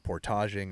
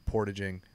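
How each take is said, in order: First: The word has a Canadian pronunciation. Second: The word has an American pronunciation. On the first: "as the Canadians would say" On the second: "Americans say"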